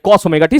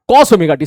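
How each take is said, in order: First: "cos" stressed again, rising at the end; corrected stress. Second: "cos" stressed as the correct word. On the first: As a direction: repeat "cos omega t" firmly, ending with a rise. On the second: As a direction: lean on "cos" to fix the slip. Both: Shown as a demonstration. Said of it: "sin omega t नहीं मेरे भाई".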